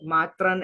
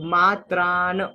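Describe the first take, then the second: First: The last vowel is short. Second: The last vowel is long. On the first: The speaker calls it wrong. "मात्रन ऐसा नहीं है" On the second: The speaker calls it right. "आ की मात्रा रह गई, तो मात्रान"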